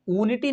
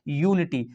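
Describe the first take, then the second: First: ऊनिटी starting on a bare "oo" vowel; wrong pronunciation. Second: यूनिटी starting with a y-glide, "yoo"; correct pronunciation. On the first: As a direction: say ऊनिटी with no y-glide at the front. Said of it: "ऊनिटी नहीं पढ़ा जाता है". (ऊनिटी, शुरू में य के बिना सीधा ऊ) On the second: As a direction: say यूनिटी with a y sound before the oo. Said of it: "इसको पढ़ा जाता है यूनिटी". (यूनिटी, शुरू में य की ध्वनि के साथ) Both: Shown as a demonstration.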